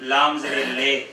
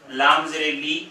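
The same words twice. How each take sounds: First: لے with an open e instead of لی, slower; wrong vowel shown. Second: لی with a short thin i; correct thin vowel. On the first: Teacher showing the wrong vowel in لے. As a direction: show the mistake with لے. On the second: Teacher contrasting the right vowel in لی. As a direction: say لام زیر لی lightly. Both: Shown as a demonstration. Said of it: "فرق ہے".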